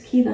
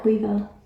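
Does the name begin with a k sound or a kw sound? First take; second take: k; kw. First: The name begins with a plain k sound. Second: The name begins with a kw sound. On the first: The speaker calls it right. "It's Kiva" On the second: The speaker calls it wrong. "not Quiva"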